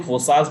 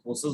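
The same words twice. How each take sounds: First: फोर्सास with a broad second vowel, "for-saas"; फोर्सास stretched to aa in the last syllable; one way of saying it. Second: फोर्सेस with an e in the second syllable, "for-ses"; फोर्सेस ending in a light ses; the other way of saying it. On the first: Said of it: "कुछ लोग फोर्सास बोलते हैं". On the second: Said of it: "कुछ लोग फोर्सेस बोलते हैं". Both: Shown as a demonstration.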